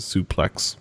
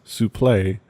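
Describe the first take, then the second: First: The word ends with an x sound. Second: The word ends without an x sound. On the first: This is the common pro wrestling pronunciation. "almost all other pro, pro wrestling talent pronounces it suplex" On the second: This is the French-derived amateur wrestling pronunciation. "pronounced souple, a Gre- Greco-Roman wrestling term derived from French"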